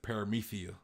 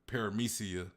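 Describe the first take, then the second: First: The middle consonant is a lisped th sound. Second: The middle consonant is a clear s sound. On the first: "a lisp of Kaido being in dragon form" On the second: "Instead of Paramecia"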